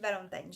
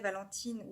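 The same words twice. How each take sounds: First: The name is said with English pronunciation. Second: The name is said with French pronunciation. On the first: "comme elle vit à Boston, aux États-Unis, peut-être qu'en fait, ça se dit Valentine" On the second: "je sais pas si on dit en français Valentine"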